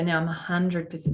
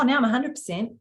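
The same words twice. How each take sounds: First: The voice is soft and gentle. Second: The voice is higher and harder. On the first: The speaker is fully centred in the heart. The speaker calls it right. "changed the tone of my voice to just more soft, more gentle" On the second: The speaker has moved back into the head. The speaker calls it wrong. "gone back up again"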